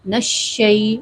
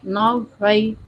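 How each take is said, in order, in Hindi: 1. पहला अक्षर सीधे अगले अक्षर से जुड़ता है। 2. पहला अक्षर खिंचा हुआ और अलग बोला जाता है। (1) "नून को शीन से डायरेक्टली मिला दें" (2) "ये आवाज़ गलत है"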